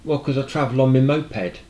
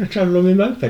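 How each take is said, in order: First: Said in the usual way. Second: High and loud, mock disbelief; incredulous repeat. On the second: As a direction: retell the absurd answer with raised voice. Repeats the absurd answer in the retelling.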